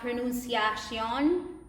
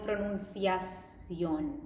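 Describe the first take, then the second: First: The ending is said like English 'shun'. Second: The ending is said like Spanish 'sion'. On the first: The speaker calls it wrong. "keeping the English sion" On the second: The speaker calls it right. "they don't go with pronunciación"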